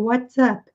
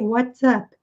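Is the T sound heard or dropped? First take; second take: heard; heard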